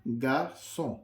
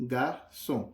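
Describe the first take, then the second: The two takes are said the same way.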